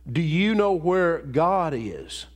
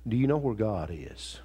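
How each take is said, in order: First: The question is asked in a sterner, harder voice. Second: The question is asked in a plain, calm voice.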